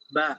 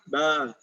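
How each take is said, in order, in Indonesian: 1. Vokalnya jelas, mulut terbuka lebar. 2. Vokalnya teredam, mulut hampir tidak terbuka. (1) "Maka harus dibuka" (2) "dia tidak membuka ... ini tidak jelas"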